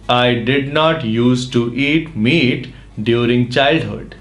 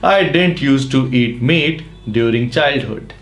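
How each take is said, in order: First: 'Did not' is said as two full words. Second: 'Did not' is shortened to one word, didn't. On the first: "डिड नॉट use to" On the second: "short में डिडंट use to भी कह सकते हैं"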